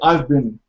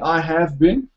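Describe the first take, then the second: First: The word 'have' is contracted onto 'I'. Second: The word 'have' is said in full. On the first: The speaker calls it right. "say I've been" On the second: The speaker calls it wrong. "instead of saying I have been"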